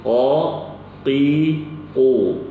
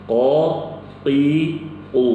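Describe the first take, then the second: The two takes are said the same way.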